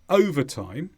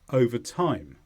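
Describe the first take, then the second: First: The stress falls on the beginning, 'over'. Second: The stress falls more on the end, 'time'. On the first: Working more hours than usual. "The stress goes at the beginning" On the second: As time passes. "the time gets a little bit more stress when the words are separate"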